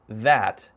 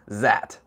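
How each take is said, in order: First: It is said in a native English way. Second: It is said in a Chinese-style accent. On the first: "when I say that" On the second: "I'm speaking with a Chinese person, they usually say that"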